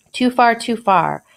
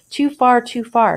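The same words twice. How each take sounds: First: A lightly read-out exclamation, slower; mild alarmed cry of too far; exclaiming. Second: A lightly read-out exclamation, pitched up; mild alarmed cry of too far; exclaiming. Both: Acted. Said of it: "exclaimed the good man".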